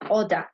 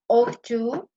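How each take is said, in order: First: The words blend into one reduced form. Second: Both words are said fully and separately. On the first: "we are going to say oughta" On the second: "Instead of ought to"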